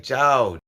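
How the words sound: It is said in a Southern dialect way. "We say Georgia"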